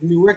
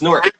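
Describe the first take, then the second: First: The word is said with two syllables. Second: The word is said as one short syllable. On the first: "Instead of Newark" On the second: "It's one word. shorter word"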